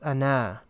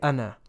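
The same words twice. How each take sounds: First: The final vowel is drawn out long. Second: The final vowel is short. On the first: The speaker calls it wrong. "Otherwise it would have been pronounced" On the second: The speaker calls it right. "you don't pronounce the second alif"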